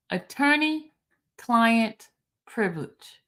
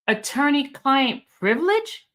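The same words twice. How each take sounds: First: "Attorney-client privilege" spaced out word by word, as a statement; slow reading. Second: "Attorney-client privilege" read as a question, rising at the end; questioning tune. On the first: Shown as a demonstration. Host spelling out the quote for slow listeners, slow and deliberate. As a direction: read "Attorney-client privilege" slowly, pausing between words. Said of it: "I said I was gonna read it slow".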